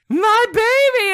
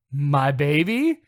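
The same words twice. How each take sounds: First: Very high, loud drawn-out wail; hammed-up mother's shriek; retold cry. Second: Said in the usual way. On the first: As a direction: scream it like a mother finding her child. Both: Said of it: "I hear from the side".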